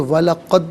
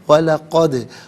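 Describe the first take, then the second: First: The final 'd' stops flat without echo. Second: The final 'd' has an echoing bounce. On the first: The speaker calls it wrong. "नहीं" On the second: The speaker calls it right. "आवाज़ लौटती हुई महसूस होनी चाहिए"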